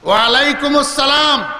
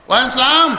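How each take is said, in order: First: The reply is pronounced fully, including "as-". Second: The reply is clipped, dropping the "as-". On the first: It is a sincere reply that earns reward. The speaker calls it right. "সওয়াব হবে" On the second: It is a mere formality that earns no reward. The speaker calls it wrong. "সওয়াব হবে না"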